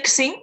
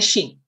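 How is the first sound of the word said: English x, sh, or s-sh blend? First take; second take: English x; sh. First: The first sound is an English x. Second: The first sound is an English sh. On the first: The speaker calls it wrong. "don't say Xing. That's using the English pronunciation of X" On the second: The speaker calls it right. "just pronounce it like an English SH"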